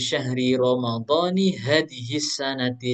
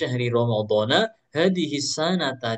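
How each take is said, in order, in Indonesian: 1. Ramadan dan sanat sama-sama berakhiran vokal i. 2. Ramadan dan sanat sama-sama berakhiran vokal a. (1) "setelahnya harus menjadi mudhof ilaih" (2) "Kalau mau dibaca Ramadana"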